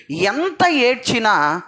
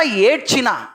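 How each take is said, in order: First: ఎంత ఏడ్చినా drawn out slowly, each word weighted; slow and deliberate, making the congregation listen; slow emphatic stress. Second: Said in the usual way. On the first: Shown as a demonstration. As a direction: lean hard on ఎంత ఏడ్చినా. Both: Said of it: "వినండి".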